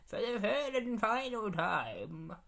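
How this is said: It is said in a put-on Guardian voice.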